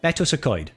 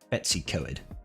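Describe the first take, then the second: First: The name is said in a Welsh-style pronunciation. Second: The name is said in an English-style pronunciation. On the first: "It's pronounced" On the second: "is actually how the English do pronounce it"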